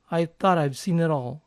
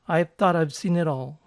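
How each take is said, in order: The two takes are said the same way.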